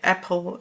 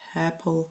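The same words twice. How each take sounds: First: It starts with a hard, pressed catch in the throat. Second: It starts softly with a breathy h sound. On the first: The speaker calls it wrong. "the vocal cords are smashed together" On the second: The speaker calls it right. "you can add, for example, an H"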